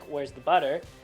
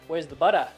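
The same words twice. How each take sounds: First: It ends butter with an r-coloured er. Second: It ends butter with an Australian uh sound.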